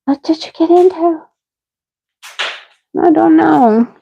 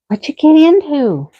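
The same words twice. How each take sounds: First: Higher cooing pet voice. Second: Higher sing-song pet voice. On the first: Owner coaxing her sick dog in high baby talk. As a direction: coo the question to the dog. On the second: Owner asking her sick dog in high baby talk. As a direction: coo it like talking to a puppy. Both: Real, not acted.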